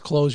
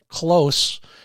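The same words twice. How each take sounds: First: The word ends with a buzzing z sound. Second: The word ends with a hissing s sound. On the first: Shut the eye. "the mantra was close your left eye" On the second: Stay near. "use the same first word but pronounce it different"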